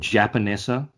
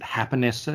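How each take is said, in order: First: The name is said with an English sound. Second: The name is said with a Spanish sound. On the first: This is how the speaker chooses to say it. "I'm going to call it Japanesa" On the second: This is how the restaurant itself says it. "they pronounce it Hapanesa because it's a Japanese Mexican fusion"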